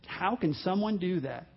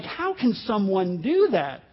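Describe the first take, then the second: First: Soft, hushed incredulous question; subdued disbelief. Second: Slow, incredulous question; acted disbelief. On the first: Acted. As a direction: let the question sink in, much softer. Repeats the stunned question, subdued. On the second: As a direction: play a stunned listener, drawing the words out. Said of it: "and you're like".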